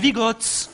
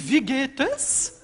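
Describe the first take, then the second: First: It is said in Bernese Swiss German. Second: It is said in standard German.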